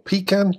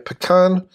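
First: It is said with a non-American pronunciation. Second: It is said with an American pronunciation. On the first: "to use the pronunciation where I come from" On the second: "to use the American pronunciation"

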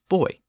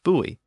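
First: It is said with the British pronunciation. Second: It is said with the American pronunciation. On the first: "In Britain, the pronunciation is buoy" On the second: "that is the most common pronunciation of the word in the United States"

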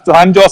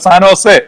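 First: Jose begins with a J sound. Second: Jose begins with an H sound. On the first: The speaker calls it wrong. "San ജോസ് അല്ല" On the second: The speaker calls it right. "ഹ എന്നാണ് ഞങ്ങൾ ഉച്ചരിക്കുന്നത്"

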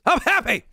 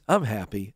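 First: The words are said in a loud, excited way. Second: The words are said in a plain, flat way. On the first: The speaker is truly, deeply happy. "it's from the soul" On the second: The speaker is only somewhat content.

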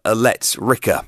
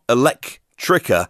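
First: No k sound comes before the t. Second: A k sound comes before the t. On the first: The speaker calls it right. "but Elettrica" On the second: The speaker calls it wrong. "Not Electrica"

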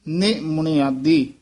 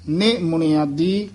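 No difference in how they are said.

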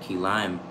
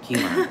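First: The stress falls on the word lime. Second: The stress falls on the word key. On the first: The speaker calls it wrong. "you're putting the enunciation on the word lime and not key" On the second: The speaker calls it right. "not key lime"

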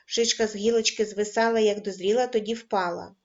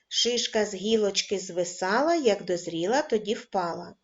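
First: The rhyme is read at a fast pace. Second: The rhyme is read at a medium pace. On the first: "кожен раз, пришвидшуючи темп" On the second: "кожен раз, пришвидшуючи темп"

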